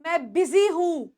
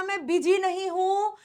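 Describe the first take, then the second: First: बिजी with a z sound, bi-zee; right way. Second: बिजी with a j sound, bi-jee; the mistaken बिजी, ज not z; wrong way. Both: Shown as a demonstration. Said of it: "और याद रखना".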